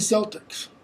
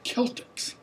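First: The word begins with an s sound. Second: The word begins with a k sound. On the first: The speaker calls it wrong. "this in Latin is never s. It's not the Boston Celtics" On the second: The speaker calls it right. "It's the Celtics. Always"

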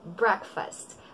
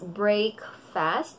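First: The first syllable sounds like brek, short vowel. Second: The first syllable sounds like the word brake. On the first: The speaker calls it right. "Ang tamang pagkakabigas ay break. Breakfast" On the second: The speaker calls it wrong. "Yung iba ang pagkakabigas is break fast"

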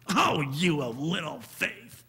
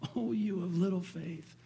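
First: It is said in an angry, scolding tone. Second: It is said in a gentle, caring tone.

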